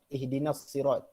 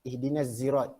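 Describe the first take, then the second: First: Sirat begins with an emphatic, heavy s sound. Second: Sirat begins with a voiced z sound. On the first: This is the majority reading. "membaca dengan sad" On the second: This is another transmitted reading. "dan zai"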